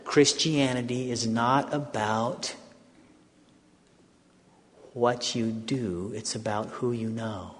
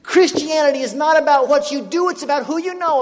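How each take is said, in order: First: Hushed slow discovery; slow realization. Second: Much higher and louder; eager loud retelling; excited. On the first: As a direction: say it slowly as if just discovering it. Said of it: "I think I'm catching something". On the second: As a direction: shout the discovery. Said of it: "Guess what? Did you know this?". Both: Retold or imitated.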